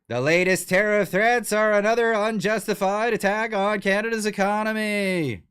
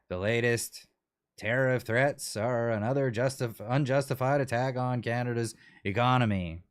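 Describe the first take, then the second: First: It is said loudly and forcefully. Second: It is said in a quiet, subdued voice.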